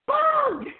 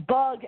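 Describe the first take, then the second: First: Sudden high, loud yelp; exclamation-point shout. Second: Said in the usual way. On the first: Shown as a demonstration. Host announcing the film title, high excited shout. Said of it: "Exclamation point". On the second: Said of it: "exclamation point".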